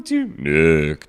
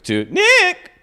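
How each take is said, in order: First: Low spooky call; ghost voice. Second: High, loud ghostly wail. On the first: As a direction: moan the name low and eerie. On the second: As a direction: cry the name like a ghost. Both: Acted. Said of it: "I gave".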